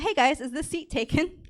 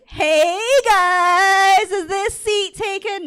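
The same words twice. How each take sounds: First: It is said in a plain, ordinary way. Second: It is said in a fun, playful way.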